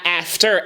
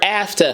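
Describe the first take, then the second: First: The second syllable has a full, clear vowel. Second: The second syllable has a soft neutral vowel. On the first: The speaker calls it wrong. "It's not after" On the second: The speaker calls it right. "almost like a neutral vowel or like a shadow vowel"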